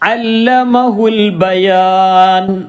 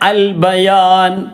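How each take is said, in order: First: It links on with the 'a' sound dropped. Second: It starts fresh with a pronounced 'a' sound. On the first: The word is joined to the word before it. "ഈ അലിഫ് ഉച്ചാരണത്തിൽ വന്നില്ല" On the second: Reading resumes after a stop. "നിർത്തുകയാണെങ്കിൽ പിന്നെ ഇനി വായിക്കേണ്ടത് ഇങ്ങനെ"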